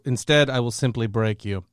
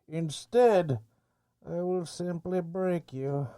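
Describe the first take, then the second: First: It is read in his normal voice. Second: It is said in a Bane impression voice.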